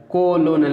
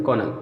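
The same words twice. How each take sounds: First: "कोलोनल" spelled out in full, ko-lo-nel; गलत उच्चारण. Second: Said in the usual way. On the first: Shown as a demonstration. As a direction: sound both O's and the L in "कोलोनल". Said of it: "नहीं पढ़ते हैं". ("कोलोनल" के हर अक्षर को बोलकर) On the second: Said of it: "ओ silent है".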